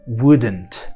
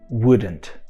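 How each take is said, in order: First: It is said as one contracted word. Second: It is said as one contracted word.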